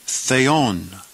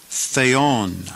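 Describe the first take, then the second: First: Theon said as thay-on, two syllables; Greek pronunciation. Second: Theon said again as thay-on, falling at the end; Greek pronunciation. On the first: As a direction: say theon slowly, thay then on. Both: Shown as a demonstration. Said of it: "We pronounce this word".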